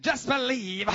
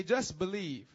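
First: Loud, high southern preacher accent; exaggerated southern twang, loud. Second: Said in the usual way. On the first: Shown as a demonstration. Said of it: "do it with a southern accent". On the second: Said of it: "Look to your neighbor and say".

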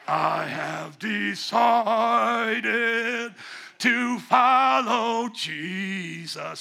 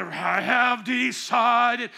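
First: Slow booming wrestler voice, drawn out; wrestling promo. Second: Slow booming wrestler singing; wrestling promo. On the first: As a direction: belt it like a WWF wrestler. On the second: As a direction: drag out each word like a wrestler. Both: Pretend. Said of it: "crazy W W F wrestler voice".

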